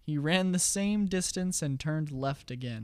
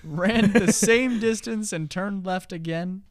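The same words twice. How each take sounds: First: Slow and deliberate. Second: Higher, louder, slow repeat of "Ran the same distance"; emphatic repeat. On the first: Riddle repeated slowly. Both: Acted.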